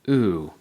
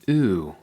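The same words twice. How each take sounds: Both takes have the same delivery.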